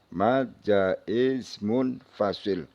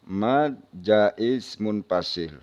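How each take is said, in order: The two takes are said the same way.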